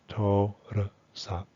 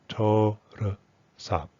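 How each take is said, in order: The two takes are said the same way.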